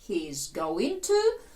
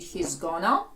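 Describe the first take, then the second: First: Each word is said fully and separately. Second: The words are contracted and run together.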